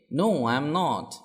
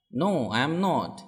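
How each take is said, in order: Both takes have the same delivery.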